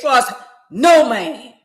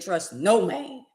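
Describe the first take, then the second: First: It is said loudly. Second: It is said at normal volume.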